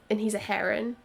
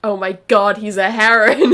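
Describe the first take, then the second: First: Said in the usual way. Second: Loud, delighted outburst; excited shout. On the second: Real, not acted. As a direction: shout it in amazed glee. Shouted reaction to learning Leren's a heron.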